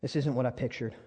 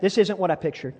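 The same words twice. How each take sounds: First: Said in the usual way. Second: Congregation repeat. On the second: Shown as a demonstration. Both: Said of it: "Say that".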